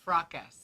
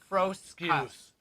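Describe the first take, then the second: First: The name has no s sound before k. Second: The name has an s sound before k. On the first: The speaker calls it wrong. "It's not frockus" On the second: The speaker calls it right. "It's froscus"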